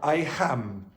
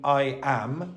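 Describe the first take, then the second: First: An h sound is added before 'am'. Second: The word 'am' starts directly with the vowel. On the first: The speaker calls it wrong. "Italians want to put a H in front of a vowel" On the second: The speaker calls it right. "Instead of saying I am"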